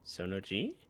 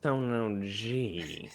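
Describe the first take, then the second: First: It is said in a normal voice. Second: It is said in a put-on voice.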